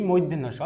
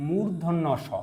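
First: মূর্ধন্য স slurred to moiddhenno sho; common misreading. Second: মূর্ধন্য স as murdhonno sho, r sounded; careful model reading of মূর্ধন্য স; correct letter name. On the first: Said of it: "যা আমরা ভুল বলে থাকি". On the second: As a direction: clear u and r in মূর্ধন্য. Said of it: "সঠিক উচ্চারণ হচ্ছে". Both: Shown as a demonstration.

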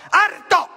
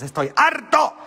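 First: "harto" flung out much higher and louder; fed up shout. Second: Said in the usual way. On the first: Real, not acted. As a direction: explode on the word "harto".

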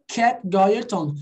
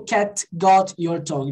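First: Linked "Cat got your tongue" with the T of "got" dropped; connected, natural-speech demo; unpronounced T. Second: Slow "Cat got your tongue" with a released T in "Cat" and "got"; overarticulated, word-by-word demo; every letter pronounced. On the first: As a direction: glide from "got" into "your" without the T. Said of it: "Ele só não pronunciou". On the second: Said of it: "Ele não falou". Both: Shown as a demonstration.

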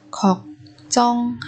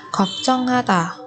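First: 걱정하다 with gaps between syllables. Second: Said in the usual way. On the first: Shown as a demonstration. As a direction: separate every syllable of 걱정하다 for learners. Teacher models word syllable by syllable.

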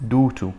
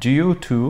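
First: "due to" without the y-glide, as "doo to"; American pronunciation. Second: "Due to" with a y-glide, as "dyoo to"; standard pronunciation. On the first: (نطق "due to" بالأمريكية بلا ياء: "دو تو") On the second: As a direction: say "Due to" as "dyoo too", with a y after the d. (نطق "Due to" بصوت الياء بعد الدال: "ديو تو") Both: Shown as a demonstration. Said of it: "هاي بالأمريكان إنجليش".

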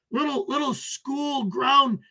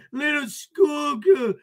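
First: Said in the usual way. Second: Higher, slow, hammed-up fake sob; mock crying. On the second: Streamer taunting troll as a schoolgirl, mock blubbering. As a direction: whimper it like a mocked crybaby.

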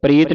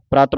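First: ਪ੍ਰੀਤ with a long "ee", "preet"; mistaken reading. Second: ਪ੍ਰਤ with an open "aa", "praat"; correct reading. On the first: Teacher warning students of a misreading, ਪ੍ਰੀਤ as "preet". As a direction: say ਪ੍ਰੀਤ with "ee" for the vowel. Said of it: "ਪ੍ਰੀਤ ਨਹੀਂ ਪੜ੍ਹਨਾ". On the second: Teacher showing students how to read it, ਪ੍ਰਤ as "praat". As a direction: say ਪ੍ਰਤ as "praat", not "preet". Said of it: "ਪ੍ਰਤ ਪੜ੍ਹਨਾ ਇਹਨੂੰ". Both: Shown as a demonstration.

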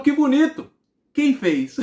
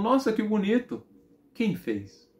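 First: Loud, high-pitched mock amazement; astonished mother. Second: Impressed mother. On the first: Mother doubting her son drew it, loudly amazed. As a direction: exclaim the praise and question loudly, near laughter. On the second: Retold or imitated. Mother looking at her son's drawing, mildly impressed.

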